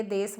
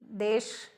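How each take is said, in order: First: देश with s replacing the final sh; mispronounced देश. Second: देश with a clear sh at the end; careful standard देश, "desh"; correct देश. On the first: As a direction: say देश as "des". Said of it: "बोल देते हैं". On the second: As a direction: finish देश on a full "sh" sound. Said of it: "बोलना चाहिए". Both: Shown as a demonstration.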